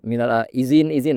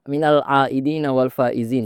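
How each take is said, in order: First: The ending is shortened to 'izin izin'. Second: The ending is said in full as 'aidin wal faizin'. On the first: The meaning changes and is lost. The speaker calls it wrong. "jadi nggak bisa minal a izin izin" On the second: It means returning to purity and winning. The speaker calls it right. "nah beda"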